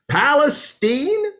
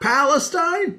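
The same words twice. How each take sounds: First: It is said with the local Texas pronunciation. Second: It is said with the usual non-Texas pronunciation. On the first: The speaker calls it right. "it's a good old Texas pronunciation" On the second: The speaker calls it wrong. "not Palestine"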